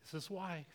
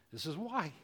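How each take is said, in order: First: Much softer, almost breathed; softer echo of the line; hushed repeat. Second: Said in the usual way. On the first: Real, not acted. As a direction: drop to a near hush after the pause. Repeated after long pause.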